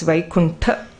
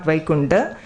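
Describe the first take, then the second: First: The consonant after the n is a t. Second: The consonant after the n is a d. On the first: The speaker calls it right. "it's Vaikunta" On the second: The speaker calls it wrong. "A common mistake, not Vaikunda"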